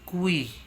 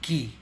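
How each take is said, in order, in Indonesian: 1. Nama huruf itu ada bunyi w setelah k. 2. Nama huruf itu tidak ada bunyi w setelah k. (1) "Biasa orang menyebutkannya kui, padahal kui itu dari bahasa Inggris" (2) "penyebutannya di dalam bahasa Indonesia adalah ki ya"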